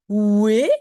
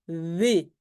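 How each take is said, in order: First: It starts with a rounded w sound. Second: It starts with a v-like sound, lips pressed. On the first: The speaker calls it wrong. "c'est pas oué" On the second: The speaker calls it right. "on fait des lèvres bien serrées, V"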